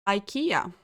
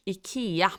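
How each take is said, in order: First: "ikea" said the English way, eye-KEE-uh; anglicised "ikea", first vowel as in "eye"; English pronunciation. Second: "ikea" said the Swedish way, ee-KEH-ah; Swedish pronunciation. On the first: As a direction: say "ikea" with an opening "eye" sound. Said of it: "or as we say in Swedish". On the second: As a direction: say "ikea" with an opening "ee" sound. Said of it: "as we say in Swedish". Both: Shown as a demonstration.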